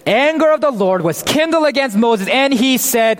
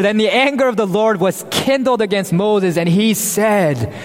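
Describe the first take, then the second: First: "Anger" lifted higher and leaned on for suspense; dramatic reread. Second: Said in the usual way. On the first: Shown as a demonstration. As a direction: reread "Anger of the Lord was kindled" higher, building suspense. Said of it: "What do you expect God to say right after". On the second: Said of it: "now pause here for a moment".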